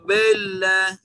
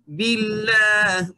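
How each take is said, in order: First: The i vowel is said with rounded lips. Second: The i vowel is said with spread lips. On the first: The speaker calls it wrong. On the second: The speaker calls it right.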